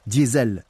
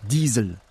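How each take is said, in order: First: Diesel said the French way, "dyeh-ZELL"; French pronunciation. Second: Diesel said the German way, "DEE-zel"; German pronunciation. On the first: Presenter giving the French version of the inventor's name, Diesel pronounced "dyé-zèl". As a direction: say Diesel as in French, two vowels, ending on a stressed -zel. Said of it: "si on prononce à la française". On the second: Presenter naming the engine's inventor, Diesel pronounced the German way. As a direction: say Diesel as in German, long ee, stressed first. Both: Shown as a demonstration.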